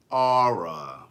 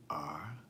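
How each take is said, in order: First: Letter R as two-syllable "Aura", DMV style; DMV accent. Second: Said in the usual way. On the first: Shown as a demonstration. Host spelling R for DMV people, in their accent. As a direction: stretch R into a low "Aura" like DMV locals. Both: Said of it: "for the people in D M V".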